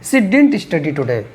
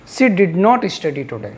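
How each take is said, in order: First: Did not is contracted into one syllable. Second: Did not is said as two full words. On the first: "shortcut में डिंट भी बोला जाता है" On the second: "आप डिड नॉट भी बोल सकते हैं"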